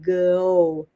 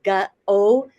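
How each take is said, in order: First: No extra vowel follows the g sound. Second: An extra vowel follows the g sound. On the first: The speaker calls it right. "is a little bit better" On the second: The speaker calls it wrong. "would not be a great way to do this"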